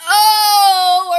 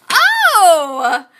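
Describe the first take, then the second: First: Loud, high, drawn-out moaning "oh"; demonstrated moan. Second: Loud, high "oh" falling away; passionate exclaimed oh. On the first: Teacher showing a single O, loud passionate moan. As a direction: moan it out long and full for show. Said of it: "the moan or the sigh would be like". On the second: Teacher showing a single O, loud impassioned cry. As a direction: cry it out big, then let it drop. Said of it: "emotion, exclamation, and passion". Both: Shown as a demonstration.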